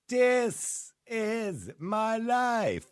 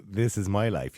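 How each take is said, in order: First: "This is my life" sung high and very drawn out, broad Dublin "Dis"; sung, belt "This is my life" slowly with a thick Dublin accent; mock Dublin singing. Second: Said in the usual way. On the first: Host mimicking a singer who sings "This is my life" in a thick Dublin accent, sung high and very slow. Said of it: "That's a very Dublin thing to say".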